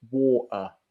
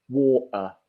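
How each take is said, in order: No difference in how they are said.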